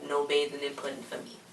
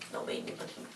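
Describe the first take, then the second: First: Said in the usual way. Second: A breathy whisper, much softer; whispered aside. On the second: Real, not acted. Viewer grossed out by the pudding bath, whispering. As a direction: repeat it to yourself under the breath. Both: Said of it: "repeated hushed".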